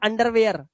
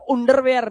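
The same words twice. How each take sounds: First: The first vowel is an open 'ah'-like sound. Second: The first vowel is a rounded 'oo' sound. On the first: The speaker calls it right. "आ से पढ़ना" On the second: The speaker calls it wrong. "नहीं तो आप बोल देते"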